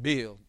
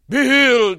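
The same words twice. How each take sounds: First: It is said calmly in an ordinary voice. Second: It is said loudly and dramatically. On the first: The speaker calls it right. "It's just" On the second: The speaker calls it wrong. "it's not even dramatic. ... it's not like that"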